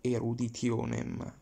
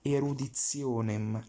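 First: The t before i is said as plain t. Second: The t before i is said as a ts sound. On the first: The speaker calls it wrong. "not eruditionem" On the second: The speaker calls it right. "So we read like English Z"

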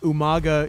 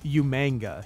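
First: There is no n sound before the g. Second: An n sound comes before the g. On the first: The speaker calls it right. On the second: The speaker calls it wrong.

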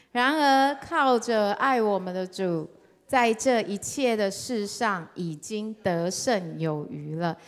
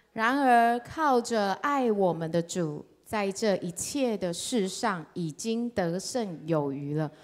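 Both takes have the same delivery.

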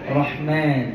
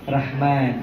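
Both takes have the same delivery.

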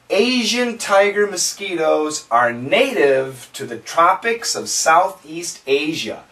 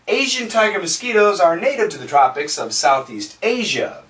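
First: The sentence is spoken at a slow pace. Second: The sentence is spoken at a fast pace. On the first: "Let's go slow" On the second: "Let's say it faster"

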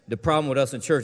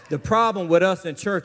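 First: It is said in a plain, casual way. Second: It is said firmly, with authority.

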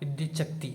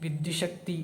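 First: The middle consonant is a doubled ch sound. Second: The middle consonant is a plain sh sound. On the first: The speaker calls it right. "വിദ്യുച്ഛക്തി എന്നാണ് അല്ലേ" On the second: The speaker calls it wrong. "ഇനി വിദ്യുശക്തി എന്നല്ല"

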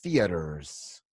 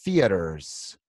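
First: An American accent, soft t and strong r. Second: An American accent, soft t and strong r.

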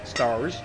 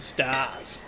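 First: It is said in an American accent. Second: It is said in a broad Australian accent. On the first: The speaker calls it wrong. "my accent decided to go American just then" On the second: The speaker calls it right. "That's how you pronounce that one"

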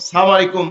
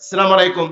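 First: The greeting opens with a clipped 'salam'. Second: The greeting opens with a clipped 'salam'.

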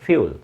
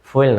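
First: The word begins with a 'few' sound. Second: The word begins with a 'foo' sound. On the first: The speaker calls it right. "উচ্চারণটা হচ্ছে ফিউল" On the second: The speaker calls it wrong. "ফুয়েল না"

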